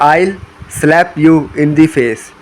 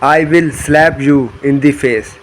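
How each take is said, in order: First: 'I will' is contracted into one syllable. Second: Both words 'I will' are said in full.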